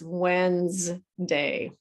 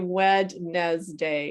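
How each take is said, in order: First: The first D is silent. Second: The first D is pronounced. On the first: The speaker calls it right. "it's Wednesday" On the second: The speaker calls it wrong. "We don't say Wednesday"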